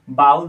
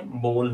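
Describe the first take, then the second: First: "बाउल" with an OW glide in bowl; common mispronunciation. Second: "बोल" with a long O; correct pronunciation. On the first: Retold or imitated. Teacher showing a common mistake, "बाउल" pronounced with OW. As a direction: say "बाउल", rhyming the first vowel with cow. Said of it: "बहुत लोग ही mistake करते हैं". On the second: Shown as a demonstration. Teacher correcting the mistake, "बोल" pronounced with a pure O. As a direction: say "बोल" as one syllable, O as in go. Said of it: "लेकिन ये बोल होता है".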